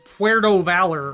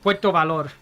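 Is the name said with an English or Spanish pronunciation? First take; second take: English; Spanish. First: The name is said with plain English sounds. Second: The name is said with Spanish sounds. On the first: "I don't just pronounce it Puerto Valor or whatever" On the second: "I go out of my way to pronounce"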